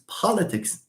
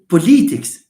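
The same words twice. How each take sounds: First: The stress is on the first syllable. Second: The stress is not on the first syllable. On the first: The speaker calls it right. "it's politics. ... this stress on po" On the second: The speaker calls it wrong. "We don't say politics"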